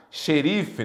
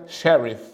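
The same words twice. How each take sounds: First: Said in the usual way. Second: "sheriff" said as an English word; English pronunciation. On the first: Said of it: "vem da palavra inglesa sheriff". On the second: Shown as a demonstration. Teacher citing the source word, English pronunciation. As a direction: switch to an English accent for "sheriff". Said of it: "Que vem da palavra inglesa".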